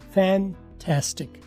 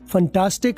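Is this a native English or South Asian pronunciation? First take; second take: native English; South Asian. First: The first vowel has a native English quality. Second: The first vowel has a South Asian English quality. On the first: The speaker calls it right. "गोरा क्या बोलेगा?" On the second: The speaker calls it wrong. "फंटास्टिक आप बोलते हैं इसको"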